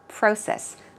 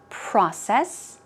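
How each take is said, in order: First: It is said with a British accent. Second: It is said with an American accent. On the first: "In British English, it's closer to process" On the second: "In American English, it's process"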